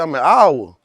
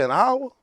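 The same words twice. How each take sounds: First: Said in the usual way. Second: AN HOUR thrown back high, rising into a question; high, querying repeat of "An hour"; questioning echo. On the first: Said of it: "I said". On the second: Retold or imitated. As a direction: retell a surprised check on "An hour", pitch climbing. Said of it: "You said".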